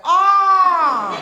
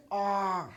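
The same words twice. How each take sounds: First: Loud, high ecstatic "Ah!"; eyes rolling back with pleasure; showing the good ah, loud and high. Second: Soft, flat disappointed "Ah."; bad ah. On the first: Retold or imitated. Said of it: "The good ah is like your eyes are rolling back". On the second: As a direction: let it sag in letdown. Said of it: "Now, there is a bad ah".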